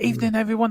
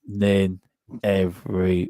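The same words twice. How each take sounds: First: It is said fast. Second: It is said slowly.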